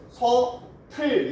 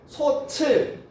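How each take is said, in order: First: The second syllable starts with an aspirated t. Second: The second syllable starts with a ch sound. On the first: The speaker calls it right. "이렇게 발음을 해야죠" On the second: The speaker calls it wrong. "다 틀린 발음"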